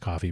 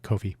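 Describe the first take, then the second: First: It sounds just like the word coffee. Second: It sounds different from the word coffee. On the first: This is how the name is generally said. "which I'm sure is pronounced coffee" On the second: It keeps the name apart from the drink. "but to differentiate, Ko-fi. That's my pronunciation"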